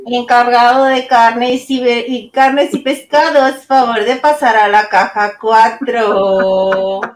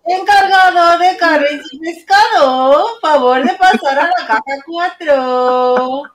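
First: Slow, drawn-out store loudspeaker call; supermarket PA announcer. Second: Higher, slow loudspeaker page voice; supermarket PA announcer. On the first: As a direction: page it over the store speaker. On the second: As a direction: call it out like a cashier on the mic. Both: Shown as a demonstration. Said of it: "como la señorita del súper, la que vocea".

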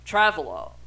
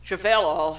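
First: "Travelo" as TRAV-uh-loh, stress up front; first pronunciation. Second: "Travelo" as shuh-VELL-oh, stress in the middle; alternative pronunciation. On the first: Reading out the car model, "Travelo" said TRAV-uh-loh. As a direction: say "Travelo" starting like "travel", then "oh". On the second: Unsure of the car's name, "Travelo" said shuh-VELL-oh. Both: Shown as a demonstration. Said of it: "however you wanna fucking pronounce that one".

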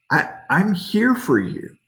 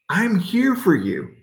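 First: Gentle reassurance. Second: Higher, pointed 'here' in a fed-up reproach; exasperated. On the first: Acted. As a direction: say 'I'm here for you' as a loving promise. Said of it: "gentle whisper". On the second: Pretend. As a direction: snap 'I'm here for you' as a reproach. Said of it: "That's what I would have said".

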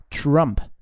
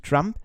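First: Drawn-out "Trump" as an American woman says it; American-style Trump. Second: Said in the usual way. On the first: Shown as a demonstration. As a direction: stretch "Trump" slowly, imitating American pronunciation. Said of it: "eine Amerikanerin hat gesagt, es heißt nicht". („Trump“ gedehnt, amerikanisch ausgesprochen) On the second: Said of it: "es heißt nicht Trump".

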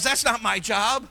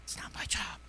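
First: Slow, higher mimicked excuse; voiced excuse. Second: Very soft whisper; whispered excuse. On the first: Preacher voicing his flock's excuse, mock refusal. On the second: Acted. Preacher echoing his flock's excuse, whispered. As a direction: repeat the excuse in a hushed whisper.

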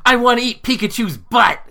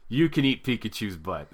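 First: Very high, loud imitation of a boy; shouting kid. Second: Said in the usual way. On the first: Son's friend blurting a joke to the party, high shouted kid imitation. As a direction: yell it out in a mock child's voice. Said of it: "my son's friend instantly was like". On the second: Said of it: "I'm like".

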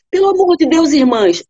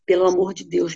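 First: Much higher, louder cry to the sisters; desperate plea. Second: Said in the usual way. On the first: Acted. The wife desperately begging her sisters, much higher and louder. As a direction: cry it out in despair.

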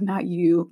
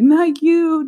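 First: Said in the usual way. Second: High, loud mock retort; exasperated louder retort. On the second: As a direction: punch it up in disbelief. Repeated retort, building up.

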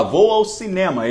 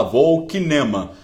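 First: "cinema" starting with s, the Portuguese way; "cinema" pronounced sinema, correctly; correct pronunciation. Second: "kinema" with a hard k, kinema; "kinema" said with k like German kino; mock mistaken "kinema" with hard k; wrong pronunciation. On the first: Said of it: "Em vez de o cara falar". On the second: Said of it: "não é kinema que fala". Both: Shown as a demonstration.

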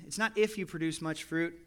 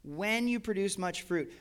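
First: If leaned on, not when; "if" pressed, the word he rejects; stress on if. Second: "When" slow and weighted; stress on when. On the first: Preacher contrasting if with when, stress on if. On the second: Preacher savouring the word when, stressed slowly. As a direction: land on "When", drawn out and firm. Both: Shown as a demonstration. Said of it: "I love that word when".

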